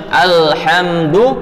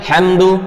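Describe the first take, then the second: First: The opening vowel is clearly pronounced. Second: The opening vowel is rushed and dropped. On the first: The speaker calls it right. "kita bacanya seharusnya alhamdu" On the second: The speaker calls it wrong. "tapi kita baca hamdu"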